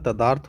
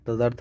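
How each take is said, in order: First: The second vowel is long, 'daa'. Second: The second vowel is short, 'da'. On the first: The speaker calls it right. "तदार्थ होता है" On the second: The speaker calls it wrong. "तदर्थ नहीं होता है"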